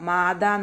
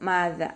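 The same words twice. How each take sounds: First: The middle consonant is a hard d. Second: The middle consonant is a soft th. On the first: The speaker calls it wrong. "ദാലിൻ്റെ സൗണ്ട് ദാലായി പോവാതെ നോക്കുക ... നോതരുത്" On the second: The speaker calls it right. "നാവിൻ്റെ ടിപ്പ് മേലെ മുൻപല്ലിൻ്റെ ടിപ്പിൽ കൊണ്ടിട്ട് വെക്കുക"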